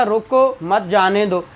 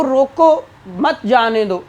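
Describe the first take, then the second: First: Said in the usual way. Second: "रोको" lifted, then a brief stop before "मत जाने दो"; short pause after रोको. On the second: Shown as a demonstration. ("रोको" के बाद छोटा सा पॉज़, फिर "मत जाने दो") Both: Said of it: "छोटा सा पाज लिया है".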